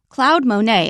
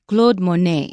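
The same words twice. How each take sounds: First: The name is said with an American pronunciation. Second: The name is said with a French pronunciation. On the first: "we'll use an American pronunciation" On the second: "in French"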